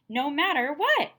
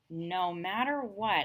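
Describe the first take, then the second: First: It is read with a lively, expressive voice. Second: It is read flatly, without expression.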